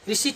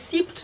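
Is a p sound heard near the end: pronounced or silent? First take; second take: silent; pronounced. First: The p is silent, ending in plain t. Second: The p is sounded before the final t. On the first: The speaker calls it right. "इसे पढ़ेंगे" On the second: The speaker calls it wrong. "न पढ़ करके"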